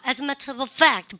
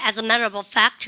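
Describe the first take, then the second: First: British accent. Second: American accent. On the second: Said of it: "미국에는". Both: Shown as a demonstration.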